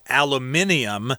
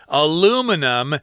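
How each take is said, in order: First: The word is said with five syllables. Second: The word is said with four syllables. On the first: This is the British form. "In England and other places, they'll say aluminium" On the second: This is the American form. "how we say it in America"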